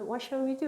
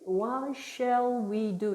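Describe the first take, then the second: First: The phrase is spoken quickly and smoothly. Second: The phrase is spoken slowly, word by word. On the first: The child is repeating it from hearing the sound. The speaker calls it right. "이렇게 빨라진다는 거예요" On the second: The child is reading it from the written text. The speaker calls it wrong. "이런 식으로 문자를 보면서 읽으려면 애들이 속도가 늦어요"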